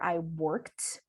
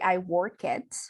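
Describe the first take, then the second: First: The ending is a plain t sound. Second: The ending adds an extra vowel syllable. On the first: The speaker calls it right. "I say" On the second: The speaker calls it wrong. "We don't say"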